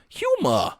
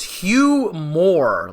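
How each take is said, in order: First: Boston HUMOR ending in an open "ah"; Boston accent. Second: HUGH MOORE as two stretched, stressed words; strange pronunciation. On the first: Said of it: "he had a Boston accent". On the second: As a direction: split humor into a loud "Hugh" and "Moore". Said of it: "he says humor in a very strange way". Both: Retold or imitated.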